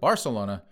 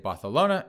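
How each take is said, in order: First: The c is said with a plain s sound. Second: The c is said with a lisped th sound.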